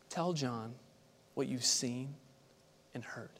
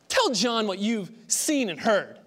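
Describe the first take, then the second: First: It is said in a gentle, quiet tone. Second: It is said in a harsh, stern tone. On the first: It offers kind reassurance to the doubter. The speaker calls it right. "kind and compassionate, tender evidence... responds quietly and confidently" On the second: It demands that the doubter shape up. The speaker calls it wrong. "just get your act together"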